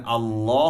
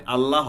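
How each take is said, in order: First: আল্লাহ said "Allaw", rounded and long; heavy "law". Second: আল্লাহ with a thin open "Allah"; wrong light "laa". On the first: Teacher applying the rule, heavy "law" in আল্লাহ. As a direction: make the l of আল্লাহ heavy, vowel "aw". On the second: Teacher showing what is never right, light "laa" in আল্লাহ. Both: Shown as a demonstration. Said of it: "কখনোই আল্লাহ হবে না".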